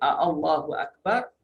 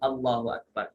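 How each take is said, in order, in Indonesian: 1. Ada bunyi 'a' tambahan sebelum 'Allahu'. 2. Langsung dimulai dengan 'Allahu', tanpa vokal tambahan. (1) "bila ada dua hamzah yang disebut a Allah" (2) "Sebut ya Allahu Akbar"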